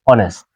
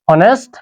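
First: অনেস্ট said with a silent h, opening on the vowel; teacher models অনেস্ট with no h sound; correct pronunciation. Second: হনেস্ট said with a sounded h at the start; teacher models the mistaken হনেস্ট, h pronounced; wrong pronunciation. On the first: Teacher shows students the silent h, অনেস্ট said vowel-first. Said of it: "আমরা কিন্তু অনেস্ট বলে থাকি". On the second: Teacher shows the wrong way, হনেস্ট with h. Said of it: "আমরা হনেস্ট বলি না". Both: Shown as a demonstration.

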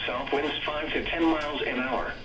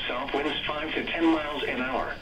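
The two takes are said the same way.

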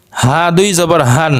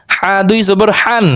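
First: Light, unpressed breath for the হ in হা and হান. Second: Tight, pressed হ in হা and হান; pressed throat H. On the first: Teacher drilling two H sounds, light হান. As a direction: let হান start with an easy open হ. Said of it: "আর একটা হালকা normal উচ্চারণ". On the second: Teacher drilling two H sounds, throat-pressed হান. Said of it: "চেপে উচ্চারণ করতে হবে গলার মধ্যে". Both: Shown as a demonstration.

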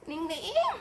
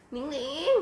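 First: Cutesy falling coo. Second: Cutesy rising call. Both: Shown as a demonstration. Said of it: "คำว่าหนิงหนิงไม่ใช่ชื่อ แต่มันคือจริต".

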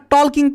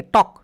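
First: টলকিং with the L sounded; wrong pronunciation. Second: টক with a silent L; correct pronunciation. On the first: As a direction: say টলকিং with an audible L before the k. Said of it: "এখানে আবার টলকিং পড়ো না". (টলকিং, ল উচ্চারণ করে ভুলভাবে) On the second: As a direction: say টক with no L sound before the k. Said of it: "উচ্চারণটা যখন করবো আমরা তখন এইরকম". (টক, ল উহ্য রেখে) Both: Shown as a demonstration.

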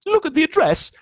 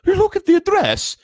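First: Very high, loud anxious voice; Aunt Petunia quivering. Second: Very high, loud Dracula-like quiver; Aunt Petunia quivering. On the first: Aunt showing husband the address, high quivering voice. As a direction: quiver anxiously without any accent. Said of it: "was saying in a quivering voice". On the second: Aunt showing husband the address, overdone Dracula-like quiver. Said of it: "that sounded like a Dracula thing". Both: A narrator's reading.

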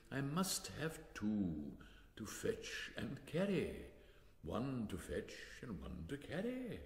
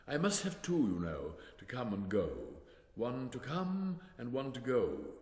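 First: Slow, laboured repetition, word by word; impatient. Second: Lightly voiced king, emphatic and louder at first; king explaining. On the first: Acted. King repeats himself to Alice, impatient and very slow. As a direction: spell it out slowly with impatience. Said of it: "the king repeated impatiently". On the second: King explains his two messengers to Alice, emphatic. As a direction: explain it as a self-important king.

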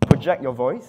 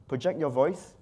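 First: Projected voice. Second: Said in the usual way. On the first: Shown as a demonstration. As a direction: project it out to the whole room. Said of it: "always project your voice". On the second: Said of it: "sorry, project your voice".

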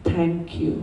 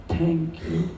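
The two takes are said the same way.

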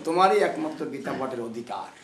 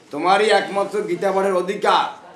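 First: Said in the usual way. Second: High, ringing declaration; loud proclamation. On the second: Retold or imitated. Mahaprabhu's verdict to the Brahmin, loudly proclaimed. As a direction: proclaim it to everyone, louder and higher.

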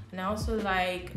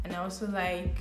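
The two takes are said the same way.

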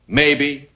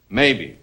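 Both takes have the same delivery.

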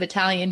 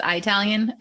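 First: Said in the usual way. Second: "Italian" with a long "eye" first syllable; husband's pronunciation. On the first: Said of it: "he still pronounces things, like, instead of". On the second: Retold or imitated. Wife imitating Minnesotan husband's word, "Italian" as "eye-talian". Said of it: "he says Italian".

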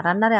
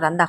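First: রান্নারে with a doubled n, no d; রান্নারে, long n in the middle; standard Bengali form. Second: রান্দা with a d after the n; রান্দা, "nd" in place of "nn"; Sylheti form. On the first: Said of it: "রান্নারে আমরা রান্দা কই". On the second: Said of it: "Sylheti মানসি আমরা রান্দা কই". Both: Shown as a demonstration.

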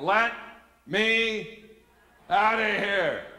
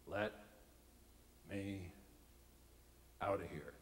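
First: High, loud, each word on its own; desperate inner yell. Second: Low, quiet, one word at a time; quiet inner plea. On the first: Same thought, now desperate escalation. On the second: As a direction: think it under your breath, word by word. Silent thought, deadpan first take. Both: Retold or imitated.

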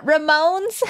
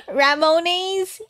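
First: [name] as ruh-MOANS, rising; questioned pronunciation. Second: [name] as ra-MO-nays, drawn out; alternative pronunciation. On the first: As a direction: ask [name] in two syllables. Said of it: "You got R". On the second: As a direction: stretch [name] into three syllables, ending "nays". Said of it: "[name] in Uwu?". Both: Shown as a demonstration.

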